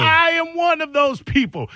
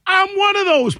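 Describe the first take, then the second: First: High insistence on "I am"; emphatic repetition. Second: High, emphatic outburst; emphatic confession. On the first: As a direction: repeat it high, stretching "I am" for emphasis. Repeats confession, stressing each word. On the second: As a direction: declare it high and forceful. Heated confession about hating reply-all. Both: Real, not acted.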